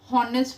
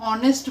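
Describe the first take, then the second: First: The word begins with an h sound. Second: The word begins with a vowel sound. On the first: The speaker calls it wrong. "हॉनेस्ट नाही" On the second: The speaker calls it right. "तर ऑनेस्ट बोलतो आपण"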